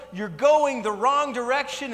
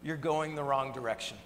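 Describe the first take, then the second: First: High, loud, slow yell; mock roadside yell. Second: Said in the usual way. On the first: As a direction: shout it across the road again. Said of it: "keep yelling and keep yelling". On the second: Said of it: "he's yelling at us".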